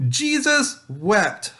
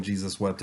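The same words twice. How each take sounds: First: "Jesus wept" drawn out slowly and high; sing-song recite "Jesus wept" for kids; slow recited verse. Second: Said in the usual way. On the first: Shown as a demonstration. "Jesus wept" led slowly to the class as a memory verse. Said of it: "So we're just gonna say". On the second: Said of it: "hopefully you're not using".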